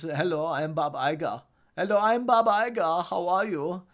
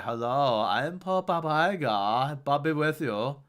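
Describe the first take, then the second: First: Put-on German accent; Bob Iger. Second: Slow, drawn-out papal voice; Pope Bob Iger. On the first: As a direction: do a German accent, rising on the repeat. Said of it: "has a German accent". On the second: Acted. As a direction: intone it like a pope giving a blessing. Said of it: "And then eventually he began".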